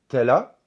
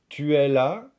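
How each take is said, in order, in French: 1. Le u de 'tu' est supprimé. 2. Le u de 'tu' est entièrement prononcé. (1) "mais plutôt" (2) "On ne va pas dire"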